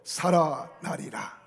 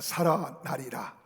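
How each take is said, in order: First: It is said in a louder voice. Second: It is said at normal loudness.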